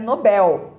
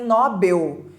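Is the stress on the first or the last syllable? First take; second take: last syllable; first syllable. First: The stress is on the last syllable. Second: The stress is on the first syllable. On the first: The speaker calls it right. "o correto é Nobel" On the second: The speaker calls it wrong. "As pessoas dizem Nobel"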